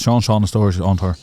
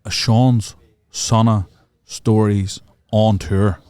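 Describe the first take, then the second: First: Segment title rattled off quickly; fast tongue twister. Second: Slow, deliberate segment title; slow announcement. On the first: Host showing the title is hard to say, rattled off fast. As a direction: run the title's words together. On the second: Host pitching a new segment before signing off, slow announcement. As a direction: space out every word of the title. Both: Shown as a demonstration. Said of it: "Say that really fast".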